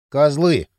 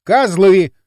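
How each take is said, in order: First: Dull, hollow curse with a falling end; dull muttered curse. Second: Loud, clearly articulated curse; loud and distinct. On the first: Kirill on his bed cursing them, dully. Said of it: "глухо проговорил Кирилл". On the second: Kirill defying possible hidden microphones, loud and distinct. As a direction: curse loudly and distinctly for any listeners. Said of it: "громко отчётливо произнёс". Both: A narrator's reading.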